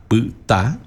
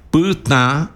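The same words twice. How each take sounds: First: "puta" as pyta, final a wholly oral; "puta" with open non-nasal stressed a. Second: Higher-pitched "puta" with the a through the nose; "puta" ending on a nasalised a; nasal final a. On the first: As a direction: keep the nose out of the a in "puta". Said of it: "con un tono oral, el, la A". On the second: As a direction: send the last vowel of "puta" into the nose, pytã. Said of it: "nasal la A". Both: Shown as a demonstration.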